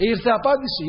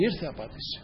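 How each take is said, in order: First: Raised, ringing declaration of the answer; emphatic proclamation. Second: Much softer, lower, almost to himself; hushed echo. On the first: Preacher proclaiming God's answer to the congregation, raised and emphatic. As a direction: proclaim Ήρθε απάντηση high and firm. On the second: Preacher echoing God's answer softly to the congregation, hushed and low. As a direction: drop ήρθε απάντηση to a quiet, low murmur. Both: Acted.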